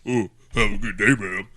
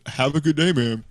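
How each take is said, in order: First: It is a mocking imitation of the woman. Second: It is said in his own plain voice.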